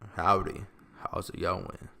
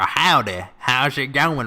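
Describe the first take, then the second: First: It is said in his own ordinary accent. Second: It is said in a put-on Southern accent. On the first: "that just sounds like me saying howdy before my sentence" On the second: "southern accent"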